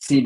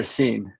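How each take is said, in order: First: Scene said in two syllables, SEE-nay; alternative pronunciation. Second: Scene said as one syllable, "seen"; alternative pronunciation. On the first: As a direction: add an "ay" ending to Scene. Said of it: "I might have gotten that wrong". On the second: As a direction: end Scene on the n, no extra vowel. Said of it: "do all the pronunciations". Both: Shown as a demonstration.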